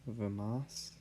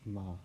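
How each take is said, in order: First: A short vowel is heard between v and m. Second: The v runs straight into the m. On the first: The speaker calls it wrong. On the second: The speaker calls it right.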